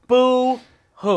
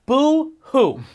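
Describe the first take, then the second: First: Boo-hoo through a laugh. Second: High sarcastic boo-hoo; mock their crying with disdain. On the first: Pretend. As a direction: laugh while mocking the crybabies. Mocking, laughing. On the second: Mocking crying players.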